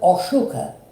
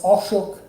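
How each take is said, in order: First: The name ends with a final vowel sound. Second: The name ends without a final vowel sound.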